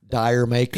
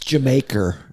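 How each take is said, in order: First: It is said as 'dire maker'. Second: It is said as 'Jamaica'.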